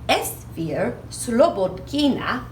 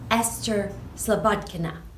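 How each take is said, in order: First: The first name is said in its original form. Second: The first name is said like the English Esther. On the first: This follows how the name is said in its home country. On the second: This follows how the name is commonly said in the United States.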